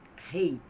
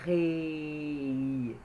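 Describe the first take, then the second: First: The word is said at normal speed. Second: The word is said very slowly, sound by sound.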